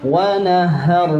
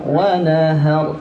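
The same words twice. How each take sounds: No difference in how they are said.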